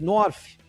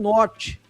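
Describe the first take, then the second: First: It is said with an English pronunciation. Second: It is said with a Portuguese pronunciation. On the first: This is the original correct pronunciation. "a gente estava falando corretamente" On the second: This is how the locals say it. "lá eles falam norte"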